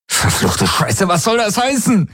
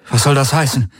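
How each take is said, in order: First: Much higher, shouting at the voice in his head; he yells at the helix in desperation; furious shout. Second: Said in the usual way. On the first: A narrator's reading. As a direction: scream heißen with rage. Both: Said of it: "schrie er sie an".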